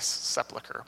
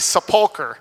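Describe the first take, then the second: First: The L sound comes before the U vowel. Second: The U vowel comes before the L sound. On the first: The speaker calls it wrong. "so it can't be sepulcher" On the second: The speaker calls it right. "the U is before the L, so it's got to be sepulcher"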